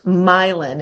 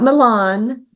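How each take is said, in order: First: The name sounds like 'my land'. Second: The name does not sound like 'my land'. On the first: The speaker calls it right. "it is pronounced Milan" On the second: The speaker calls it wrong. "not not Milan"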